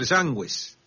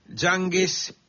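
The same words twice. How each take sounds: First: The u after g is pronounced. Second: The u after g is silent. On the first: The speaker calls it right. "con la diéresis podría llegar a ser" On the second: The speaker calls it wrong. "Espero haber pronunciado bien"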